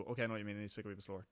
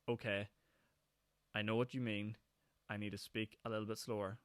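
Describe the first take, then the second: First: Rapid natural Northern Irish pace; quick, run-together words; normal fast speech. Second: Slowed down and clear. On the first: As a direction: rattle it off at home speed. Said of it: "in my normal voice". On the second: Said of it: "Whereas if I just do that in my normal voice". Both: Shown as a demonstration.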